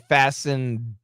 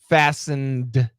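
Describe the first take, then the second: First: The final D is held without release. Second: The final D is fully released. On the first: The speaker calls it right. "We go to the D, but we don't release" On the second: The speaker calls it wrong. "we don't say fastened"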